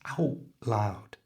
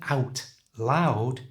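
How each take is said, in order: First: The T at the end of 'out' is dropped. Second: The T at the end of 'out' is pronounced. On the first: "just don't say the first one of those letters, in this case, the T on out" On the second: "instead of"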